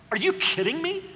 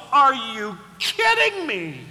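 First: Higher incredulous question; mock disbelief. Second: Louder slow exasperation; mock-exasperated parent. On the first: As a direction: scoff at prayer in disbelief. First take incredulous. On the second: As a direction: scold the child. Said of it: "and the parent goes".

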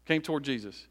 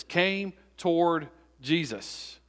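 First: Said in the usual way. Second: "came toward Jesus" slowly, word by word; deliberate emphasis. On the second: Shown as a demonstration. Preacher pointing out a phrase, "came toward Jesus" slow and emphatic. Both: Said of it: "notice this".

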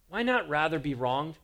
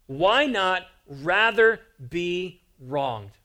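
First: Said in the usual way. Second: Each word weighed out slowly; slow weighty question. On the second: Acted. Preacher posing Paul's question to the church, slow and weighty. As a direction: let the question land heavy and slow.

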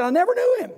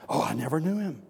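First: High, shouted angry denial; loud outburst, pitch leaping high; Peter. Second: Offhand denial at normal volume; casual, unforced disowning; dismissive denial. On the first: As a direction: yell the oath at full voice. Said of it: "He took a curse and said". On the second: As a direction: brush the question off lightly. Peter's first denial, voiced offhand. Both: Acted.

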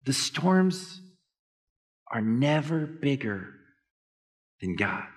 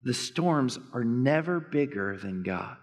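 First: Long pauses between "The storms", "are never bigger" and "than God"; phrase by phrase pauses. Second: Slow, weighty stress on "never". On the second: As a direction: say it slowly and lean on "never". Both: Shown as a demonstration.

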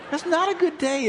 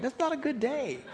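First: Louder, higher, through a laugh; laughing repeat. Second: Said in the usual way. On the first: Shown as a demonstration. Preacher repeating his joke to the congregation, laughing. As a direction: land the joke again, chuckling.

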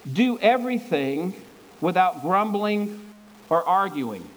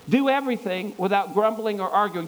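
First: "Do everything" and "without grumbling" and "or arguing" set apart by pauses, slowly; slow phrase-by-phrase reading. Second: Said in the usual way. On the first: Shown as a demonstration. Preacher slowly reading verse fourteen to the church, pausing between phrases. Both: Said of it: "listen to verse fourteen".

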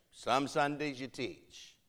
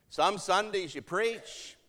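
First: Slow delivery, dropping away on "teach"; understated falling remark. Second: Higher, slow delivery rising on "Sundays"; pointed high remark. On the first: Matriarch remarking to preacher on his teaching, understated and falling. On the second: Matriarch remarking to preacher on his preaching, pointed and high. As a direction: lift "Some Sundays you preach" high and measured. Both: Retold or imitated.

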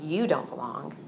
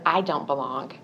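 First: You don't belong with You leaned on; second-person You stressed. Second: I don't belong with I leaned on; first-person I stressed. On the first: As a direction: push You, as an outside accuser. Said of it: "I didn't hear a voice saying". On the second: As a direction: push the word I, as her own thought. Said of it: "we often hear his voice in I statements". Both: Shown as a demonstration.

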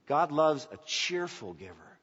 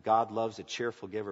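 First: "God loves a cheerful giver" slowed, leaning on each word; stressing cheerful. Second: Said in the usual way. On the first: Shown as a demonstration. Pastor repeating the verse to his congregation, slow and stressed. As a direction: spell out "cheerful giver" slowly. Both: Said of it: "not just a giver".

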